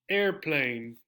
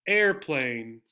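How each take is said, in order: Both takes have the same delivery.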